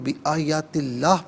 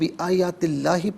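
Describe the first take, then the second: First: The word ends with a bare h. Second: The word ends with an -i vowel. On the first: The reading stops at this point. "अगर रुकें तो बिआयातिल्लाह पढ़ा जाएगा" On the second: The reading continues without stopping. "यहाँ पर हम बिआयातिल्लाह ही पढ़ेंगे"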